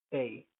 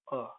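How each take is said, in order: First: A said as "ay", as in "day"; full letter name A. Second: "a" reduced to a neutral "uh"; weak-form "a", sounding like "uh"; schwa A. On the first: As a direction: give "a" its full long vowel, "ay". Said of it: "is pronounced like". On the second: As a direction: say "a" as a short schwa, "uh". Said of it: "uh, the schwa a". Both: Shown as a demonstration.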